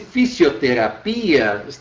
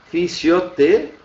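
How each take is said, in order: First: The stress falls on the 'i' near the end. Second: The stress falls before the 'i' near the end. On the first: The speaker calls it wrong. "teria que estar no I" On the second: The speaker calls it right. "a pronúncia dela é fisioterapia"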